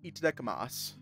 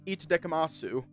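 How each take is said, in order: First: The final u sound is dropped. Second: The final u sound is clearly pronounced. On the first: The speaker calls it right. "you don't pronounce the U. I think it's just itadakimasu" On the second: The speaker calls it wrong. "I don't think it's itadakimasu"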